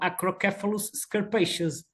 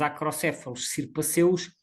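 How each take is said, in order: First: The name is said with an English accent. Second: The name is said with a Portuguese accent. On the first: This is how English ringers say it. "anilhadores ingleses e eles diziam" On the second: This is how locals say it. "que nós chamamos"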